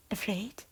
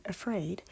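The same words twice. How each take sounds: First: Afraid with a light Scottish lilt, rising; Scottish accent. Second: Said in the usual way. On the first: Shown as a demonstration. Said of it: "she says". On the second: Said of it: "instead of saying".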